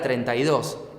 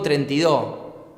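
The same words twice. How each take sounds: First: The final s sound is clearly pronounced. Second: The final s sound is left off. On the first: The speaker calls it right. "quise decir la palabra treinta y dos" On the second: The speaker calls it wrong. "O digo treinta y dos"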